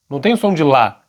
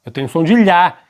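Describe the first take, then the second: First: Said in the usual way. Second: "lhá" said with a palatal lh, not a plain L; palatal lh sound. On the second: Shown as a demonstration. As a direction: press the tongue flat for "lhá", as in falha.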